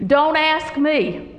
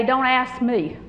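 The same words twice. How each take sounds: First: "Don't ask me" said slowly, each word weighed, DON'T stressed; slow emphatic repeat. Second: Said in the usual way. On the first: Shown as a demonstration.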